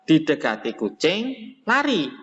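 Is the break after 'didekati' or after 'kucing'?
after kucing. There is a break after the second word. The one the cat approached runs away. "berarti yang lari adalah misalnya orang yang didekati kucing"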